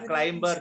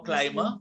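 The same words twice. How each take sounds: First: A b sound is pronounced after the m. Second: The b after the m is silent. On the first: The speaker calls it wrong. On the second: The speaker calls it right. "we don't pronounce the B"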